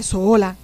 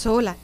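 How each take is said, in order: First: Louder, drawn-out echo of one word; imitating disbelief. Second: Said in the usual way. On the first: Mother questions daughter traveling by herself, imitated disbelief. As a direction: echo it back like an incredulous mother.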